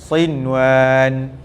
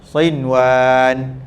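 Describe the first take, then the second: No difference in how they are said.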